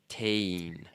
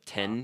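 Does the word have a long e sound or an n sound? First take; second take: long e; n sound. First: The n is dropped, leaving a long e. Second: The n sound is pronounced in the middle. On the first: The speaker calls it right. "it's almost like you have a long e sound" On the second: The speaker calls it wrong. "So instead of ten"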